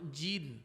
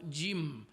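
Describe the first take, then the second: First: The word ends with an n sound. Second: The word ends with an m sound. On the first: The speaker calls it wrong. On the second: The speaker calls it right.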